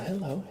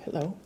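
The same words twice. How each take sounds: The two takes are said the same way.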